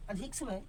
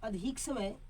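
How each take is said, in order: First: The teacher repeats the dictated words softer; softer repeat for dictation. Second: अधिक समय spoken slowly for students to write; slow dictation. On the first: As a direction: repeat अधिक समय quieter, slowly, for writing. (धीमे स्वर में दोहराना) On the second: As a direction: dictate word by word with long pauses. (धीरे-धीरे बोलकर लिखवाना) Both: Shown as a demonstration. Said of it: "dictation pauses".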